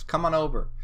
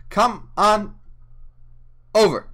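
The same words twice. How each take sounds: First: Said in the usual way. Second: Calling viewers over in a big voice; loud sing-song call. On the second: Acted. Streamer calls viewers to YouTube, loud sing-song. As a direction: come on rising high and loud, over punched.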